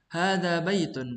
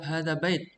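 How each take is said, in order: First: The noun ends with the full '-un' ending. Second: The noun stops short without the '-un' ending. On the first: The speaker calls it right. "diucapkan sesuai dengan harokat yang tertulis" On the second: The speaker calls it wrong. "tidak boleh di waqaf. Tidak boleh kita mengucap hadza bait"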